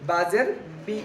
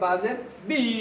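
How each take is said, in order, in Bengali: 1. শেষ স্বরধ্বনিটি হ্রস্ব রাখা হয়। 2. শেষ স্বরধ্বনিটিকে লম্বা করে টেনে বলা হয়।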